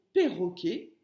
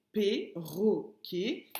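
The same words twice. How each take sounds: First: Said in the usual way. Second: "perroquet" slowly split into three separate syllables. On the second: Shown as a demonstration. Teacher showing pupils the hidden syllable, "perroquet" split syllable by syllable. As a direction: break "perroquet" apart, a gap after each syllable.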